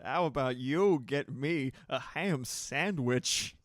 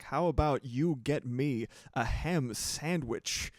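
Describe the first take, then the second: First: Slow, loud, oddly paced Walken line; Walken impression. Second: Walken impression. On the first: Streamer rereading chat's quote in slow, loud Walken voice. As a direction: drag out each word in a loud deadpan Walken voice. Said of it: "Moxie perfectly typing it out in chat". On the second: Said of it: "I was like".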